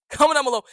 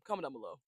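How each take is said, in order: First: Much higher, much louder shout; a sudden loud call to comment. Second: Softer, lower throwaway line; quiet aside. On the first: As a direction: belt it out to the viewers. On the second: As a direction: mumble it low like an afterthought. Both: Shown as a demonstration.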